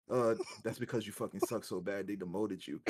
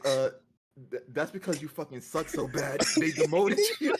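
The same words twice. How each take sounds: First: Imitating a deadpan put-down, low and soft; serious, sincere. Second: Quoted jab dissolving into laughter at the end; retold insult, cracking up. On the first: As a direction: say it dead seriously, no laugh at all. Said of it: "he said it with such seriousness". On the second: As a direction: start evenly, then break into laughter.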